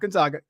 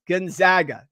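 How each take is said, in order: First: The middle syllable does not sound like 'zag'. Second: The middle syllable sounds like 'zag'. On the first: The speaker calls it wrong. "not Gonzaga" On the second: The speaker calls it right. "it's go Zags"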